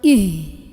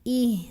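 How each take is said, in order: First: The h is pushed hard from the chest. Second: The h comes lightly from deep in the throat. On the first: The speaker calls it wrong. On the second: The speaker calls it right.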